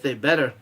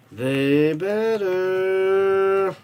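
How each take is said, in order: First: Said in the usual way. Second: Very slow, stretched-out "They better"; a fan slowly stretching out his demand for a win; drawn-out insistence. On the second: Real, not acted. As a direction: drag every sound out like a warning. Hoping his team wins.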